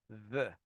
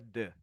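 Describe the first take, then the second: First: It starts with the tongue between the teeth. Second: It starts with a d sound. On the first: The speaker calls it right. "com a língua entre os dentes" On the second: The speaker calls it wrong. "Não é the. Senão seria um D"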